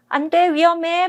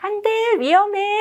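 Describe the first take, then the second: First: It is said in a firm, serious voice. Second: It is said in a light, smiling voice. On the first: The limit is meant seriously. The speaker calls it right. "단호하고 분 분명하게 말씀을 해 주셔야 되는데" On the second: The words and the manner send mixed signals. The speaker calls it wrong. "막 얼굴은 웃고 계세요"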